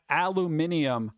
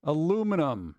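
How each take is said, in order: First: "aluminium" as al-loo-MIN-ee-um; five-syllable "aluminium", ending ee-um; British aluminium. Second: "Aluminum" as uh-LOO-muh-num; four-syllable "Aluminum", stressed on LOO; American aluminum. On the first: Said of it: "I've heard people say aluminium". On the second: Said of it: "Two ways to say". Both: Shown as a demonstration.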